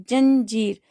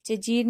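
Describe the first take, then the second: First: "जंजीर" with a clear nasal "jan" in the first syllable; teacher gives students the right form "जंजीर" with nasal; correct nasal. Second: "जजीर" said without the nasal, as ja-jeer; teacher showing the wrong form "जजीर" with no nasal sound; wrong word shown. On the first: सही उच्चारण "जंजीर" अनुस्वार के साथ. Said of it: "ज के ऊपर अंग की बिंदी की आवाज आ रही है". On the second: गलत उच्चारण "जजीर" बिना अनुस्वार के. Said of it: "जजीर नहीं होता है". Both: Shown as a demonstration.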